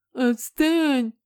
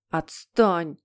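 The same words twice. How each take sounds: First: High, loud whiny taunt; mocking mimicry. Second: Mildly whimpered protest; sobbing, acted. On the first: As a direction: mimic a crybaby brother mockingly. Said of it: "передразнил Генри". (передразнивая, высоким противным голосом) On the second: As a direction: snap it out as if close to sobs. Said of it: "всхлипнул Питер". (всхлипывая, понарошку)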